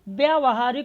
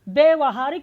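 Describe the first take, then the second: First: The vowel after 'vy' is long. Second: The vowel after 'vy' is short. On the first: The speaker calls it right. "बड़ा या होगा" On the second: The speaker calls it wrong. "व्यवहारिक नहीं होता है"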